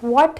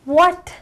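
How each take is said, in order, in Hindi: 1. यह शब्द सीधे सवाल जैसा लगता है। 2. यह शब्द चौंका हुआ और हैरान लगता है। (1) "that means you asking a question" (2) "आप शॉक्ड हो एकदम"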